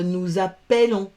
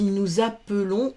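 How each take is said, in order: First: "appelons" said as a-pell-on, with open è; wrong open è. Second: "appelons" said as a-peu-lon; schwa in middle. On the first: Teacher shows pupils what not to say, "appelons" as a-pell-on. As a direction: open the middle vowel of "appelons" to è. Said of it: "on ne dit pas". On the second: Teacher gives pupils the correct form, "appelons" with a schwa. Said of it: "On dit nous appelons". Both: Shown as a demonstration.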